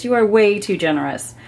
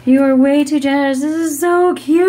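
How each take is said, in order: First: Said in the usual way. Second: Louder, faster, emphatic thanks; emphatic excited thanks. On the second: Real, not acted. Thanking her generous friend again, louder and emphatic. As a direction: say it again like you really mean it.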